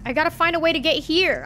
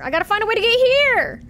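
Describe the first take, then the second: First: Said in the usual way. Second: Fed-up yell of a lost player; frustrated outburst. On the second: Real, not acted. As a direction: blurt it out in exasperation. Lost in game, repeating frustrated.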